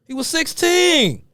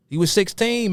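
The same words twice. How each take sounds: First: "He was sixteen" much higher and slow, pressing hard on "sixteen"; exasperated emphasis. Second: Said in the usual way. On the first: Real, not acted. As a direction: insist on "sixteen", high and drawn out. Repeats to defend young King.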